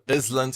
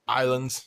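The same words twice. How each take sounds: First: An s sound is heard in the middle. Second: The s is silent in the middle. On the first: The speaker calls it wrong. "instead of island" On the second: The speaker calls it right. "you don't need to pronounce it. It's just island"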